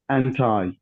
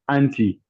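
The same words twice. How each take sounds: First: It ends with a long eye sound. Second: It ends with a short i sound. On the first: "you cannot have I sound in American English" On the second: "short it sound in British English"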